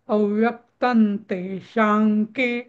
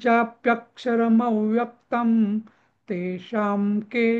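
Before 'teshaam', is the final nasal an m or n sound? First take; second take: n; m. First: The nasal before 'teshaam' is an n sound. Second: The nasal before 'teshaam' is an m sound. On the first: "आता मन येईल. कारण तो मी सतत fast म्हणतो, म्हणजे जोडून म्हणतोय" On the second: "अनुस्वारा सगळे रिप्लेस करीन मी म अर्ध्या म नी"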